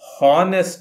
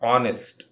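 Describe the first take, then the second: First: The word starts with an h sound. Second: The word starts directly with a vowel. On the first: The speaker calls it wrong. "ಹಾನೆಸ್ಟ್ ಅಲ್ಲ" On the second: The speaker calls it right. "ಈ ಎಚ್ ಅಕ್ಷರವನ್ನು ಉಚ್ಚಾರ ಮಾಡುವುದಿಲ್ಲ"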